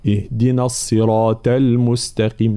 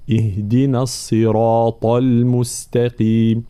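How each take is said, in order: First: اهدنا الصراط المستقيم recited with ط of الصراط as ت; thin the end of الصراط to a plain t; faulty recitation with light t in الصراط; ta turned light. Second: اهدنا الصراط المستقيم recited slowly with a full emphatic ط; slow correct recitation, emphatic ط in الصراط; heavy ta. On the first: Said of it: "إذا كان معناها الطاء صارت". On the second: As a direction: keep the end of الصراط dark and heavy. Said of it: "هكذا". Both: Shown as a demonstration.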